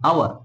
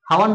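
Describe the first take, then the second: First: The word begins with a vowel sound. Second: The word begins with an h sound. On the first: The speaker calls it right. "কিন্তু আওয়ার" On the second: The speaker calls it wrong. "হাওয়ার নয়"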